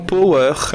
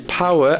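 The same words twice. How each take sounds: First: The first vowel does not sound like 'ouch'. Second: The first vowel sounds like the one in 'ouch'. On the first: The speaker calls it wrong. "Des fois, on entend power" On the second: The speaker calls it right. "ça se dit power avec le O W comme un ouch"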